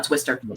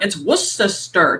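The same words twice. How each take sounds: First: It is said without the exaggerated accent. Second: It is said in an exaggerated Boston accent.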